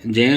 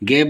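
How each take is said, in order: First: The syllable begins with a j sound. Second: The syllable begins with a g sound. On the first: The speaker calls it right. "इसे हम जय जय उच्चारित करते हैं शुद्ध शुद्ध बोलें तो" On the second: The speaker calls it wrong. "गे बोलते हैं परंतु सही नहीं है"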